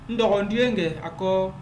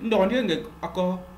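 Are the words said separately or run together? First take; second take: separately; run together. First: The words are said slowly and kept apart. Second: The words are said fast and run together. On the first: "j'articule le plus que possible, ... je ne suis pas en train de mettre les liaisons" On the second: "sans toutefois articuler, ça va être plus rapide"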